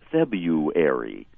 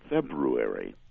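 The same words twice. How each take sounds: First: The r sound after the b is dropped. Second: The r sound after the b is pronounced. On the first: The speaker calls it wrong. "almost always pronounced as though it were February" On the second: The speaker calls it right. "the correct February"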